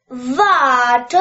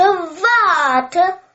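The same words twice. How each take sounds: First: A call, louder than talk, at usual pitch. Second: Repeated call, higher and louder. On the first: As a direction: call after her. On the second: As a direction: call louder as she runs. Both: A narrator's reading. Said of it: "ruft der Frosch".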